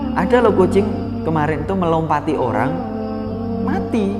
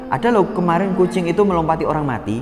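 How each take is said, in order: First: There is a pause just before the word mati. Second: The phrase runs on without a pause before mati. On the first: The cat is the one that died. "pastinya kita memahami kucingnya yang mati" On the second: The person who was jumped over is dead. "siapa yang mati? Orangnya toh"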